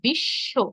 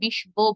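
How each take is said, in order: First: The sh is doubled with no b sound. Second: A b sound is pronounced after the sh. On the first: The speaker calls it right. "আমরা বলি কি বিশ্ব" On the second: The speaker calls it wrong. "আমরা কেউই এখানে বিশ-ব বলি না"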